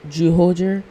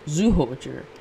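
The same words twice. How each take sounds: First: The name begins with a J sound. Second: The name begins with a Z sound.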